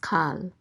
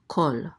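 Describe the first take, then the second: First: The vowel is an open 'ah' sound. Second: The vowel is a rounded 'aw' sound. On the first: The speaker calls it wrong. "this word will never be pronounced kal" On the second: The speaker calls it right. "It will always be pronounced kol"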